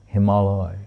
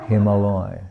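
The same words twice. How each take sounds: First: It is said as Hima joined to alaya. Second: The same.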